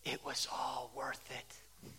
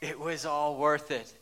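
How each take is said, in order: First: Breathy hushed whisper, slow and reverent; softly whispered, savoring the moment; whispered quote. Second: Said in the usual way. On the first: Retold or imitated. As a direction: whisper it like a sacred confession. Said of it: "she said".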